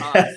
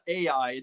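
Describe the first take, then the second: First: The name is said as one syllable. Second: The name is said as two syllables. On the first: The speaker calls it right. "it's I" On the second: The speaker calls it wrong. "it's not A I"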